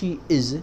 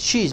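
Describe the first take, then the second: First: It is said as two full words. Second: It is said as one contracted word. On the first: The speaker calls it wrong. "not she is" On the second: The speaker calls it right. "but she's my sister"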